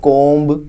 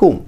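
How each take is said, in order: First: "comb" with the b sounded, like komb; wrong pronunciation. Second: "comb" with a silent b, ending on the m; right pronunciation. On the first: Teacher showing students the wrong "comb", b sounded. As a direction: say "comb" ending on a hard b. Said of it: "It's not comb". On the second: Teacher correcting students, "comb" with a silent b. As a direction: say "comb" like koam, no b at the end. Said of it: "It's not comb, not comb". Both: Shown as a demonstration.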